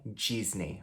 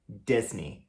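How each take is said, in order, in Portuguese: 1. É dito com pronúncia do português brasileiro. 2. É dito com pronúncia inglesa. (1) "e não Disney" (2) "Então a gente pronuncia Disney"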